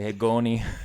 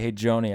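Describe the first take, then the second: First: The name begins with a hard G sound. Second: The name begins with a J sound. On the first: "if all of our J sounds were G sounds" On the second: "instead of say"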